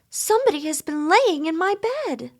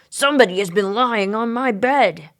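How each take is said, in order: First: It is said in a sweet voice. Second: It is said in a great gruff voice.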